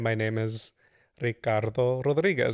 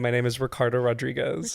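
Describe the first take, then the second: First: The name has a Spanish pronunciation. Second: The name has an English pronunciation. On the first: "you would do the right pronunciation" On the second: "code switching"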